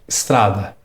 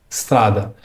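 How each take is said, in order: Both takes have the same delivery.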